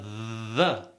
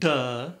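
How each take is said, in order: First: The word begins with a voiced th sound. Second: The word begins with a hard d sound. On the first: The speaker calls it right. "but the" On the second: The speaker calls it wrong. "Not duh"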